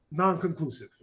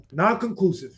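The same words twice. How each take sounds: First: Said in the usual way. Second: Non-conclusive in a light put-on British accent; mock British accent. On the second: Shown as a demonstration. Debater teasing his opponent, tries a British accent. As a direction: say Non-conclusive like a playful Brit. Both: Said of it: "What if I say it in a British accent?".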